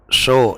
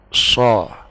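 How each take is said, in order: First: The vowel is a fully rounded o. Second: The vowel is slightly darkened, between a and o. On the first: The speaker calls it wrong. "itu terlalu berat" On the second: The speaker calls it right. "diberatkan sedikit"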